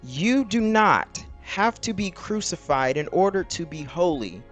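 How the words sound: It is read in a slow, deliberate way.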